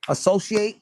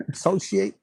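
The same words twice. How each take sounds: First: Said in the usual way. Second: Associate? repeated through a small laugh. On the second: Real, not acted. Reader amused at her own word Associate? while laughing. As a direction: chuckle while saying Associate?. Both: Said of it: "what do they call it".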